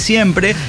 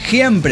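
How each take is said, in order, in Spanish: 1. El primer sonido es una s silbante y clara. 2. El primer sonido es parecido a una h aspirada. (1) "en lugar de siempre" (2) "La S inicial en este caso pronunciada como una J"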